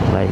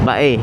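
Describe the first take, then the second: First: The name is said as one syllable. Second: The name is said as two syllables. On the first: The speaker calls it wrong. "Bye daw" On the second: The speaker calls it right. "Bae ang ta ang pagbigkas nun"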